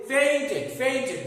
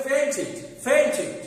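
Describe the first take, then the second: First: ফেইন্টেড as "pain-ted", e at the end; wrong -ted ending. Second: ফেইন্টেড as "pain-tid", higher pitched; short i ending on ফেইন্টেড; correct -tid ending. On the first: Teacher quotes what we wrongly say, ফেইন্টেড with -ted. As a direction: open e in the last syllable of ফেইন্টেড. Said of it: "ভুল". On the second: Teacher says how it must be said, ফেইন্টেড with -tid. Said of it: "বলতে হবে". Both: Shown as a demonstration.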